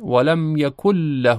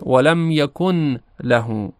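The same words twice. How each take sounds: First: The n merges into a doubled l sound. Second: The n sound is pronounced before the l. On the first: "با ادغام خونده بشه" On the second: "بدون ادغام خونده بشه"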